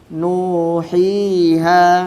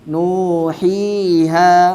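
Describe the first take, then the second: The two takes are said the same way.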